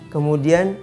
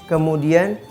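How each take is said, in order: The two takes are said the same way.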